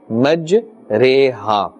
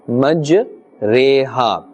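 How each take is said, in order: The two takes are said the same way.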